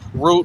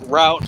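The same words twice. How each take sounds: First: The vowel sounds like the one in boot. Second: The vowel sounds like the one in about. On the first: "a boot"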